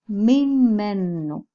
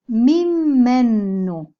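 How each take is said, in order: First: Mimenu said again, slowly, with a falling end; Hebrew word repeated. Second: Slow, drawn-out mimenu; Hebrew word. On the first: Teacher repeating the Hebrew word, slow and falling. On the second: Teacher modelling a Hebrew word, slow and clear. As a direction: mimenu said slowly, syllable by syllable. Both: Shown as a demonstration. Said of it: "si lo translitero es mimenu".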